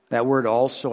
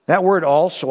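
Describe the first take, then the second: First: "also" marked off more gently; name "also" again, quieter; stress on also, softer. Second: "also" set apart and emphasised; single out the word "also"; stress on also. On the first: Pastor applying the word to the church. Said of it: "applies to us". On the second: Pastor pointing to a highlighted word. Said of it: "I highlighted in my Bible". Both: Shown as a demonstration.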